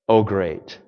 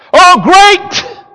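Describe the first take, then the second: First: It is said flatly, like a period. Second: It is said excitedly, like an exclamation.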